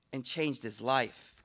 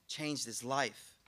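First: Slow emphasis. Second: Slower, softer repeat of Changed his life; slow soft echo. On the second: Preacher echoing the lesson for the crowd, slow and soft. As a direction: let Changed his life linger softly. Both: Shown as a demonstration.

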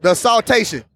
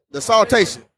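Both takes have the same delivery.

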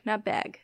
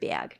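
First: "bag" with a raised vowel, like "beg"; rejected pronunciation. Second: "Bag" with a Milwaukee glide, like "byag"; Milwaukee pronunciation. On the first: Correcting the host's version, "bag" sounding like "beg". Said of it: "Bag, not bag". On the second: Correcting the host's imitation, "Bag" as "byag". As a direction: say "Bag" as "bee-ag". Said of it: "That's a Milwaukee thing". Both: Shown as a demonstration.

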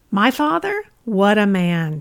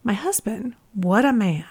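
First: Put-on a raised, exclaiming New York accent; thick New York accent. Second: Said in the usual way. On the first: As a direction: belt it out like a proud New York grandma. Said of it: "she exclaimed in her thick New York accent". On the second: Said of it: "she exclaimed".

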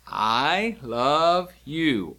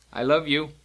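First: Each word stretched out very slowly; slow demonstration. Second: Said in the usual way. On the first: Shown as a demonstration. Teacher showing learners how to sign I love you, slow demonstration. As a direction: draw out every word, one at a time.

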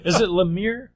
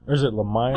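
First: "Lemire" rhyming with "sheer"; Lemire as luh-MEER. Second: "Lemire" rhyming with "fire"; Lemire as luh-MIRE. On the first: Co-host asks friends how to say the author's name, "Lemire" as luh-MEER. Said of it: "I pronounce it Lemire". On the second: Co-host offers the other way to say the author's name, "Lemire" as luh-MIRE. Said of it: "I've heard people say Lemire". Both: Shown as a demonstration.

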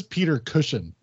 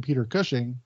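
First: "Cushing" said like "cushion", ending in -un; Cushing read as Cushion. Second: "Cushing" said normally, ending in -ing; Cushing said right. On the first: Pointing out the letter's typo to co-host, reading it as cushion. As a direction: read "Peter Cushing" as "Peter Cushion", the misspelling aloud. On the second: Reading a fan's letter aloud, actor's name said correctly. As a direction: say "Peter Cushing" the standard way, "Cush-ing". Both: Shown as a demonstration. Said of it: "changing Cushing's last name to Cushion".

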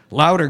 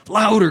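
First: Raised shout to turn it up; louder call. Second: Much higher, louder shout; louder again. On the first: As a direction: call out over the music. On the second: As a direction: yell it over the guitars. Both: A narrator's reading. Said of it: "God said".

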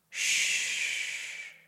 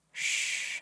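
First: Breathy whispered hush; whispered shush. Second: Soft whispered hush; murmured shush. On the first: Baron hushes the narrator. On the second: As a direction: murmur it to silence them. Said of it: "the Baron murmured". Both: A narrator's reading.

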